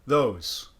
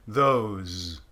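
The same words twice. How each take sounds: First: The word ends with a voiceless S sound. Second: The word ends with a voiced Z sound. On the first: "If I made it fully an S" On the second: "the sound is a Z"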